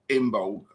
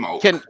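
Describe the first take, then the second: First: It has a b and ends in g. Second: It is said without a b sound. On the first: "with a bit more of a G on the C" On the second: "without the, the B being silent"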